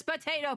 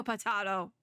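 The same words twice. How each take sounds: First: "Potato" with a long AY in the middle; usual pronunciation. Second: "potato" with a broad AH in the middle; contrary pronunciation. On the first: Orbit agreeing to disagree, "Potato" said puh-TAY-toh. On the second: Orbit being contrary, "potato" said puh-TAH-toh. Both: Acted. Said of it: "Nobody pronounces it like potato".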